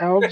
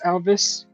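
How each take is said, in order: First: The name is said with one syllable. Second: The name is said with two syllables. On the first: The speaker calls it right. "it's elves" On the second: The speaker calls it wrong. "it's not pronounced Elvis"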